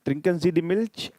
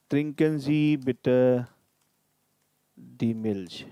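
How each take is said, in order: First: "Trinken Sie die Milch" rising high at the end; question tune. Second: "Trinken Sie bitte die Milch" with a firm falling end; slow and level, drop on "Milch" as a command; polite command. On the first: Teacher shows how it sounds as a question, rising. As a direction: lift the pitch on "Milch" like asking. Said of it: "with question mark". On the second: Teacher models the polite command form, falling. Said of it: "put exclamatory mark after the sentence". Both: Shown as a demonstration.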